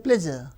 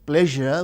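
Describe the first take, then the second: First: The middle consonant is a z sound. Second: The middle consonant is a zh sound. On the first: "we say pleasure" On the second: "we don't say pleasure"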